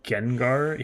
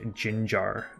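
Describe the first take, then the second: First: The name begins with a hard G sound. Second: The name begins with a soft J sound. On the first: The speaker calls it right. "he doesn't say like Gengar" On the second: The speaker calls it wrong. "He'll pronounce it like Ginjar"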